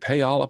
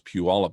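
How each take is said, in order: First: The name is said the way outsiders say it. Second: The name is said the way locals say it. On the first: The speaker calls it wrong. "nobody knows how to pronounce it, especially when you see advertising from uh, from from like banks" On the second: The speaker calls it right. "No, it's Puyallup"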